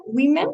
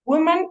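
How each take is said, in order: First: "women" said WIH-men; plural pronunciation. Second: "Woman" said WUU-man; singular pronunciation. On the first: Teacher reviewing singular and plural, "women" as WIH-men. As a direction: open "women" with a short i. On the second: Teacher reviewing singular and plural, "Woman" as WUU-man. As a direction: open "Woman" with a rounded oo. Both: Shown as a demonstration. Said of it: "lo que cambia en realidad es la O".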